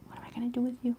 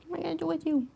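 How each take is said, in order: First: Soft unvoiced whisper to the cat. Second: High soft sing-song question. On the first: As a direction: breathe it out as a secret. Repeated as whisper. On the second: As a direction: coo it at the cat. Fond scolding of cat, high. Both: Real, not acted.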